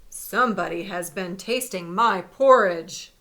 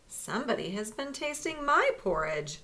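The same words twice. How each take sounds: First: It is said in a big, deep voice. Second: It is said in a medium, middle-sized voice.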